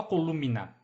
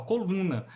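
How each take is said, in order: First: "columna" with both M and N pronounced; M sounded separately. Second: Said in the usual way. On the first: Shown as a demonstration. Teacher showing how it was not said, "columna" with a sounded M. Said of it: "Não falava columna". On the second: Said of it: "falava coluna".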